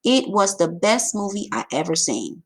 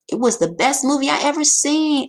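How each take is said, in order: First: Said in the usual way. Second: Higher and louder, full of excitement; excited exclamation. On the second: Shown as a demonstration. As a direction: say it like you loved the movie. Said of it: "Exclamation point".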